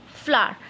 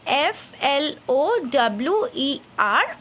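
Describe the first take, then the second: First: Said in the usual way. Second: Slow, careful letter-by-letter spelling; spelled out slowly. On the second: Shown as a demonstration. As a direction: dictate each letter to the class. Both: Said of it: "I will write the first word".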